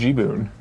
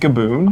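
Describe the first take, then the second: First: The first syllable is said as 'gee'. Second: The first syllable is said as 'ga'. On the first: "I always pronounced it G-boon" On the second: "you pronounce it Gaboon?"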